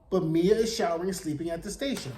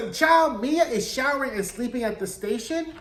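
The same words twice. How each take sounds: First: Brisk deadpan repeat; flat restatement. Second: Mia said high with a puzzled rising end; lifted, questioning disbelief; incredulous rise. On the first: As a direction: land "station" down as plain fact. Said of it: "We don't know". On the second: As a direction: ask "station" up like you can't believe it. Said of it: "What is that about?". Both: Real, not acted.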